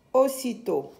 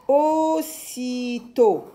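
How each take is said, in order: First: Said in the usual way. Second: Very slow, higher, syllable-by-syllable reading; drawn-out syllables. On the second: Shown as a demonstration. Teacher models a word for young readers, drawn-out syllables. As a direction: stretch each syllable for beginning readers.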